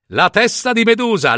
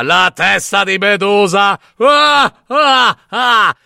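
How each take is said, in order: First: Mocking repeat. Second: Loud, scornful shout into a cackle; mocking laughing shout. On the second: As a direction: jeer at the boy and laugh out loud. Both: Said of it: "scoppiò in una risata".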